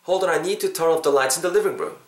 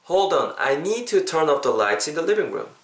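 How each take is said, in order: First: It is said faster. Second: It is said at a normal pace.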